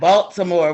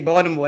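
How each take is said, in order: First: It is said the way outsiders pronounce it. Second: It is said in the local Baltimore accent. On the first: The speaker is not from the city. The speaker calls it wrong. "not Baltimore" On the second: The speaker is from the city. The speaker calls it right. "We say Baltimore. That's how you know somebody from here"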